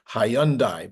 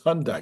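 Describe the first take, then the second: First: The name is pronounced the way it is spelled. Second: The name is pronounced in its usual spoken form. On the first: This is how the name looks written. "It looks like Hyundai" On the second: This is how most people say the name. "everybody says it's Hyundai"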